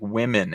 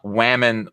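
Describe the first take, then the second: First: The first vowel sounds like 'ih', as in wimmen. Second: The first vowel sounds like 'ah', rhyming with ramen. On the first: The speaker calls it right. "It's like it's like women, ... W I M M E N" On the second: The speaker calls it wrong. "it's not whammon like it rhymes with ramen"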